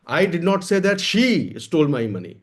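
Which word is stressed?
she. The word "she" carries the main stress. Money was stolen, but not by her. "पैसा चोरी हुआ है लेकिन मैंने ये नहीं कहा कि उसने चुराया है।"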